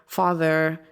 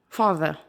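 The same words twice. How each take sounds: First: The final r sound is clearly pronounced. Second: The final r sound is dropped. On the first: "There's an er at the end" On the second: "in British English, it's more just"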